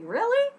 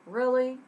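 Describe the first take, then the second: First: Much higher, loud eager squeak; light up with joy; excited. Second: Sarcastic. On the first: Jose showing he loves the idea, excited rise. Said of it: "With excitement". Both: Shown as a demonstration.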